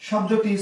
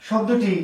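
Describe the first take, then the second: Both takes have the same delivery.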